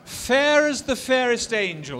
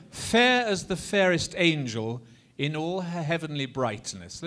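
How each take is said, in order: First: Loud, high, drawn-out romantic declamation; heartfelt romantic ardor. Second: Measured declaimed line for repeating; speech-rhythm model line. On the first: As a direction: declaim it slowly with swelling ardor. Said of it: "a bit more heartfelt". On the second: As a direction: recite it for a group to echo. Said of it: "just say after me". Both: Shown as a demonstration.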